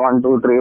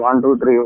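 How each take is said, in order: The two takes are said the same way.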